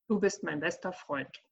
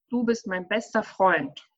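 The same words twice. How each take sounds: First: It is said in a flat, matter-of-fact tone. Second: It is said in a warm, emotional tone. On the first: The feeling behind the words does not come across. The speaker calls it wrong. "Das klingt total sachlich" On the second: The speaker shows real affection for the friend. The speaker calls it right. "viel netter sagen wollen und viel emotionaler"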